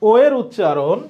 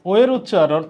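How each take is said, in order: Both takes have the same delivery.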